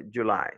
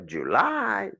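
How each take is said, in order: First: "July" with a modestly longer second syllable; moderate stress. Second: "July" with the second syllable hugely drawn out and high; overdone stress. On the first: Teacher showing enough is enough, light stress on end of "July". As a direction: stress the LY of "July" without overdoing it. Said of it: "Plus longuement, plus fortement". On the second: Teacher showing what not to do, overblown stress on "July". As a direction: exaggerate the LY of "July", swooping up and holding it. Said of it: "T'as pas besoin de crier". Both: Shown as a demonstration.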